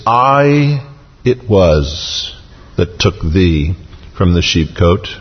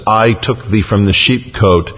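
First: Emphatic, drawn-out "I" set apart by a pause; stress on I. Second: Said in the usual way. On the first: Shown as a demonstration. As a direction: hit "I", pause, then let the rest fall away. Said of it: "is emphatic". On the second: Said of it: "where it says".

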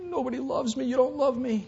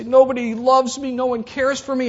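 First: High, teary self-pitying whimper; high, soft tearful whimper; whiny crying. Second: High, loud complaining cry; hammed-up wail of self-pity; loud, high mock protest. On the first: Retold or imitated. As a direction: sob it out like a sulking child. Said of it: "And God says". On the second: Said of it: "We say".

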